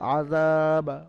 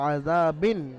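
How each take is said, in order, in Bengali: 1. শব্দটি একটি খালি 'b' ধ্বনি দিয়ে শেষ হয়। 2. শব্দটি একটি 'bin' ধ্বনি দিয়ে শেষ হয়। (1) "বায়ের পরে সাকিন এসছে, কারণ এখানে বায়ের উপরে আপনি ওয়াফ পড়ছেন" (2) "বাদুজের বিন ছিল এখানে, তো এখানে আপনি বাদুজের বিন পড়বেন না"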